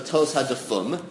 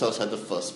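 First: The last word ends with an m sound. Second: The last word ends with an s sound. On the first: The speaker calls it wrong. "you pronounce it wrong because it's tos hadafum" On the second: The speaker calls it right. "That's tos hadafus"

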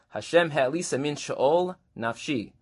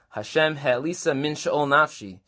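First: A pause falls between she'ol and nafshi. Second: No pause falls between she'ol and nafshi. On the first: The soul was raised up from the underworld. The speaker calls it right. "It's appropriate to pause" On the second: It was raised from the depths of the soul. The speaker calls it wrong. "That doesn't actually work"

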